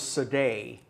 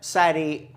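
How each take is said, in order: First: The name is said with a French-sounding pronunciation. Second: The name is said the plain English way. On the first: The speaker calls it wrong. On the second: The speaker calls it right.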